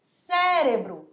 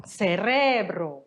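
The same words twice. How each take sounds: First: Cérebro stressed on the first syllable, CÉ-re-bro, slowly; Portuguese cérebro. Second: Cerebro stressed on the middle syllable, ce-RE-bro, slowly; Spanish cerebro. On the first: Teacher giving the Portuguese word, cérebro slow with stress on CÉ. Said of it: "Em português". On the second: Teacher contrasting with Spanish, cerebro slow with stress on RE. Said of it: "em espanhol". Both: Shown as a demonstration.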